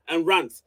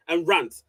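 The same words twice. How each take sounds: The two takes are said the same way.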